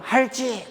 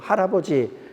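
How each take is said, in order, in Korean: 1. 단어를 두 음절로 줄여서 말했어요. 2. 단어를 전부 말했어요. 네 음절 모두요. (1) "할지 그러면서 막 오는 거예요" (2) "이걸 못해갖고"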